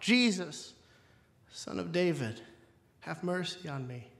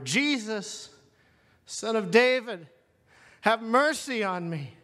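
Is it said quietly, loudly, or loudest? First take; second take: quietly; loudly. First: It is cried out at normal loudness. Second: It is cried out more loudly.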